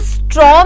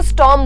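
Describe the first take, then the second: First: The r sound comes right after the t. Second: The r sound comes after the vowel. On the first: The speaker calls it wrong. "इसको स्ट्रॉम नहीं बोलते" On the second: The speaker calls it right. "इसको स्टॉर्म बोलते हैं"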